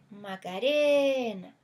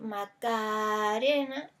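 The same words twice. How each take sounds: First: The vowel of the syllable re is lengthened. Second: The vowel of the syllable ca is lengthened. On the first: The speaker calls it right. "si yo quisiera exagerar la palabra Macarena" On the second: The speaker calls it wrong. "alargar otro verso como la segunda A"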